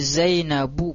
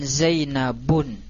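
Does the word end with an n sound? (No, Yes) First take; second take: No; Yes. First: The word ends in a vowel, no final n. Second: The word ends with a final n sound. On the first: The speaker calls it right. "jadi Zainabu" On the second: The speaker calls it wrong. "bukan Zainabun"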